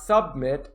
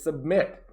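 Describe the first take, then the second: First: The stress is on the first syllable. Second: The stress is on the second syllable. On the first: The speaker calls it wrong. "It is not submit" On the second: The speaker calls it right. "it is submit"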